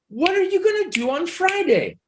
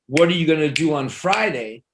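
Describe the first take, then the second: First: The pitch moves up and down noticeably. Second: The pitch stays mostly flat throughout. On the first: The speaker is talking politely to a boss. "What's changing is the up and down" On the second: The speaker is talking casually to a friend. "I could say to my friend"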